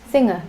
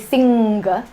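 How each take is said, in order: First: The ng is heard with no hard g. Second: A hard g sound follows the ng. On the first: The speaker calls it right. "We say she's a singer" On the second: The speaker calls it wrong. "You don't say singer"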